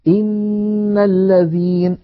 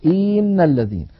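First: إن الذين slow and higher; slow recited example. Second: إن with the kasra dragged toward إين; overstretched kasra. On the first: Teacher recites the example in even timing. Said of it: "الخطأ ... أن يمط كسرة". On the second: Teacher demonstrates the stretched kasra mistake. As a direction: drag the kasra of إن. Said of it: "الهمزة فيقول". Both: Shown as a demonstration.

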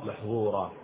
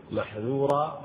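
First: محظورا with a heavy emphatic zha. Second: محذورا with a light, open dhal. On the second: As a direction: keep the dhal in محذورا unemphatic. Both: Shown as a demonstration. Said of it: "حتى تفرق بينه وبين".

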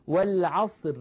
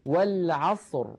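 First: والعصر ending in a thin light ra, the wrong way. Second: والعصر said slowly, ending in a full heavy ra like ra; the correct والعصر, slow and heavy ra. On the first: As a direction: end والعصر with a fine ri-like ra, as a mistake. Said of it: "لا نقول". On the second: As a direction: stop on والعصر with a thick rounded ra. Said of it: "بل نقول". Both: Shown as a demonstration.

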